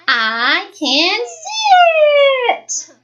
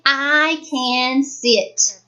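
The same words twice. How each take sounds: First: The voice rises and sounds excited. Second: The voice stays level and calm.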